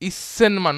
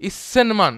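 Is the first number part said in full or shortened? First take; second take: shortened; shortened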